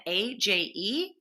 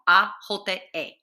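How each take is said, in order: First: Said in the usual way. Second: A J E as Spanish "ah, HO-ta, eh"; Spanish letter names. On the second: Shown as a demonstration. Teacher spelling a word ending for Spanish learners, A J E in Spanish. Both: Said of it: "we'll do this in Espanol".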